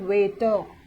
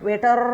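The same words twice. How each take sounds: First: The final r is silent. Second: The final r is pronounced. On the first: The speaker calls it right. "ನೋಡ್ರಿ pronunciation ಹೆಂಗೆ ಮಾಡಕತ್ತೆ ನಾ" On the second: The speaker calls it wrong. "ವೇಟರ್ ಅನ್ನತಿಲ್ಲ"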